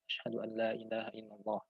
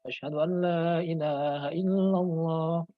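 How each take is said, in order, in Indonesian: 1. Diucapkan dengan pelan dan lirih. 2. Diucapkan dengan suara keras. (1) "Terus membaca pelan" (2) "diulang lagi dengan suara yang keras"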